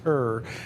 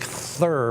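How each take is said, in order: First: It begins with a plain t sound. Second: It begins with a soft th sound. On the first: The speaker calls it right. "but it's tur" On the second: The speaker calls it wrong. "it looks like thur"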